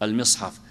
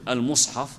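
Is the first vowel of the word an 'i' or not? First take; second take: i; not i. First: The first vowel is an i sound. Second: The first vowel is not an i sound. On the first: "بالكسر" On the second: "وربما يكون المصحف لكن"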